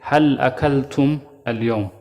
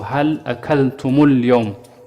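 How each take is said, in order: First: The m ends without a following vowel sound. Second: The m is followed by a short u vowel. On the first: "So we say" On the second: "the meme will have a dhamma"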